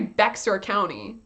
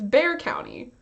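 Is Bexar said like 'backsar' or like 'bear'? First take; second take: backsar; bear. First: Bexar is said with the x sound. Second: Bexar is said like 'bear', no x. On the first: The speaker calls it wrong. "You don't say Bexar County" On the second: The speaker calls it right. "You don't pronounce the X?"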